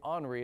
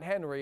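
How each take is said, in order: First: The name is said the French way. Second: The name is said the English way. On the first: The speaker calls it right. "it's Henri. It's a weird pronunciation from the Hurricane Center. It's actually French" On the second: The speaker calls it wrong. "not Henry"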